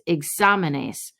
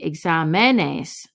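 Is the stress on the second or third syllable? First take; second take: second; third. First: The stress is on the second syllable. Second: The stress is on the third syllable. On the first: The speaker calls it right. "It's examenes. So to get that said correctly, we have to write the accent mark" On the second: The speaker calls it wrong. "If there was no accent mark and we were in the plural, the accent would fall here"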